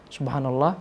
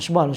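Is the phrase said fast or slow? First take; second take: slow; fast. First: It is said slowly and clearly. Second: It is said very fast and slurred. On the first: Every letter is fully pronounced. The speaker calls it right. "pelan-pelan saja" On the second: The recitation does not reach the heart. The speaker calls it wrong. "cepat sekali sehingga huruf-hurufnya tak jelas"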